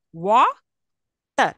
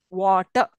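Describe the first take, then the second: First: Water said slowly as wa-ter with a clear break; split into syllables. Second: Water said in one go, no final r; whole word. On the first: Teacher splitting a word for the class, syllable by syllable. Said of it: "I will split it saying that". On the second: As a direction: say water smoothly without the r. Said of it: "I'm not saying r sound there". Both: Shown as a demonstration.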